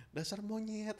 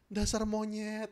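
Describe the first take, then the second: First: Soft, gentle name-calling; a half-hearted insult gone soft; softened insult. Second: Gentle insult. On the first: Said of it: "Ngomongnya aja jadi halus". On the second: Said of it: "Kan ini dihalusin gini". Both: Shown as a demonstration.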